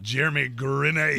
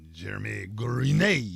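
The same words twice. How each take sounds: First: It is said in the speaker's ordinary accent. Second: It is said in a put-on French accent.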